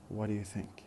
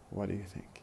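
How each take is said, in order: First: It is run together with a weak 'do'. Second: The same.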